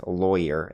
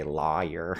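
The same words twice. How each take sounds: First: "lawyer" as LOY-er; own pronunciation. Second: "lawyer" as LAW-yer; other people's pronunciation. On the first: Shown as a demonstration. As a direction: say "lawyer" rhyming with foyer. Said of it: "No, it's lawyer". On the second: Retold or imitated. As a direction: say "lawyer" with an open AH first. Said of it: "Maybe some people say".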